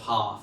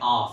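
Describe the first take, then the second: First: The word starts with an h sound. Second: The word starts without an h sound. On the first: "instead of half" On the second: "H-dropping, saying arf"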